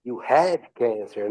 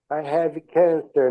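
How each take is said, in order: First: "You have cancer" drawn out, stress on "have"; slow echo of "You have cancer", leaning on "have"; imitated reply intonation. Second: "I have cancer" slow, slightly raised, falling on "cancer"; imitated film intonation. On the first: Student imitating her entering the scene, slow echoing intonation. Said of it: "Dá aquela entonação na fala". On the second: Student imitating Michael's bedside line, slow movie intonation. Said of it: "é a entonação da frase".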